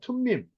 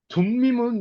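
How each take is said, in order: First: The word begins with a breathy, aspirated t sound. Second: The word begins with a soft, unaspirated d sound. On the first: The speaker calls it right. "원래는 툼이에요" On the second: The speaker calls it wrong. "둠자라고 발음이 안 돼요"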